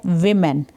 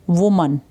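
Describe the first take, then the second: First: विमेन, the plural, short i then clear e; plural pronunciation. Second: वुमन, the singular, rounded first vowel; singular pronunciation. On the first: Teacher shows the word with E, pronouncing विमेन as "WI-men". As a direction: say विमेन with "wi" first, ending "men". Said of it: "अगर इसमें ई लग जाए तो pronunciation बन जाती है". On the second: Teacher shows the word with A, pronouncing वुमन as "WU-mun". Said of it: "तो pronunciation होगी". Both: Shown as a demonstration.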